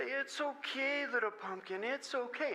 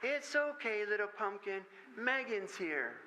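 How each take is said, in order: First: Slow, soft and higher; soothing a toddler. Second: Put-on a tiny girl mothering a doll; little girl soothing. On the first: Retold or imitated. Father comforting his crying daughter, slow soft coo. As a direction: hush her gently, draw it out. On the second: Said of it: "this little voice saying".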